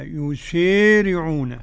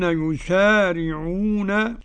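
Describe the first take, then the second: First: The long a vowel is tilted toward e. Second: The long a vowel is plain, without tilting. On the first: This is the reading of one transmitter alone. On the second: This is the reading of most reciters.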